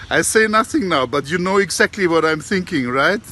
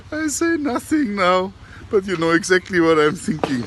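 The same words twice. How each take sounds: First: Higher, louder knowing parrot voice; a parrot hinting slyly; the parrot teasing the auntie, high and sly. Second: Parrot voice through laughter. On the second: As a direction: retell the punchline while giggling. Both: Retold or imitated. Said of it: "And then he says".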